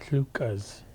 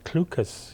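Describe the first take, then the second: First: The word starts with a breathy L sound. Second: The word starts with a K sound. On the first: This is the original pronunciation. The speaker calls it right. "the proper pronunciation is Lucas" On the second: This is how the early settlers said it. The speaker calls it wrong. "they couldn't say that. The L H sound, so they said Clucas"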